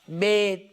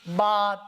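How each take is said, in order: First: The letter name is said in Urdu style, 'be'. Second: The letter name is said in Arabic style, 'ba'.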